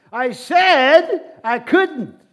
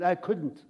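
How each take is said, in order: First: Very loud, high and drawn-out insistence; emphatic shout. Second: Said in the usual way. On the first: Retold or imitated. Jesus repeating himself to the confused man, emphatic shout. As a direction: shout it slowly, stretching SAID and COULDN'T.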